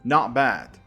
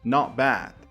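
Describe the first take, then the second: The two takes are said the same way.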